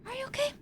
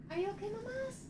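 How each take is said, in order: First: High, hushed worried question; soft worried. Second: Much higher, hushed question; soft and concerned. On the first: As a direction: ask tenderly, rising at the end. Asks again softer. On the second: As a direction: ask it gently, almost breathless. Asking a character softly. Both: Acted.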